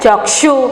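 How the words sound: It is said with a Hindi-style pronunciation. The speaker calls it right. "Hindi में हम क्या कहेंगे"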